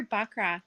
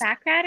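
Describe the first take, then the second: First: "baccarat" with a broad ah, as in bock; alternative pronunciation. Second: "baccarat" with a short flat a, as in back; first pronunciation. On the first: Dealer offering the other name, "baccarat" starting like "bock". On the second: Dealer checking the game's name, "baccarat" starting like "back". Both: Shown as a demonstration. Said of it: "Or is it baccarat or baccarat?".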